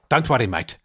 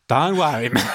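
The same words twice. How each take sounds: First: Clipped South African, said again the same way. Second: Australian bent toward South African, clipped; South African accent. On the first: Dentist repeating the clipped line, in a South African accent. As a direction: clip it short like a South African. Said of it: "It's quite clipped". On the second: Dentist demonstrating how the accent is built, in a South African accent. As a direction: start Australian, then clip it South African. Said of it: "you start Australian and then just bring it in". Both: Shown as a demonstration.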